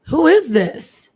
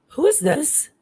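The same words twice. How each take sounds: First: Louder, high and slow, insisting; retold frustrated demand. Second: Higher-pitched, uneasy question; a touch of fear, retold without raising the volume; retold scared question. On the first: Repeating the question to the unknown caller, frustrated. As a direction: demand an answer, scared and frustrated. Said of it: "I was getting frustrated". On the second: Asking the dead man's caller who it is, uneasy. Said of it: "like I was scared".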